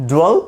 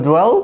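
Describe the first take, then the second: Both takes have the same delivery.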